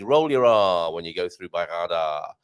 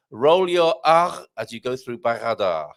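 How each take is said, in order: First: Said in the usual way. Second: Slow, with a trilled R in "Barrada"; rolled R. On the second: Shown as a demonstration. Host demonstrating the rolled R in "Barrada", slow and trilled. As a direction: roll the R hard in "Barrada", taking it slowly.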